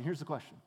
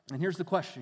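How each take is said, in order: First: The question repeated, dropped much softer; quiet echo. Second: Said in the usual way. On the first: Shown as a demonstration. Preacher echoing his own question much softer. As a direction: let the second "here's the question" fall away soft and low. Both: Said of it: "repeats the question for effect".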